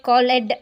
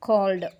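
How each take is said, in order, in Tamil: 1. இந்த முடிவு கூடுதல் அசையாக ஒலிக்கப்படுகிறது. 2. இந்த முடிவு வெறும் குறுகிய 'd' ஒலி மட்டுமே.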